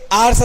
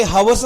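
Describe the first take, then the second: First: आर्स starting on the vowel; silent H. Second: हवस with the H sounded; wrong pronunciation with H. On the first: Teacher showing students the correct word, आर्स with silent H. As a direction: say आर्स with no h sound at all. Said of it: "ते आर्स असतं". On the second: Teacher showing students the wrong way, हवस with H sounded. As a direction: say हवस with an audible h at the start. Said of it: "हे हवस नसतं". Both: Shown as a demonstration.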